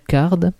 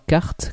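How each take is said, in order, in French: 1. Le mot se termine par un son d. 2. Le mot se termine par un son t. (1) "on prononce bien card, comme une carte à jouer en anglais" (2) "et non pas carte, comme les petites voitures de course"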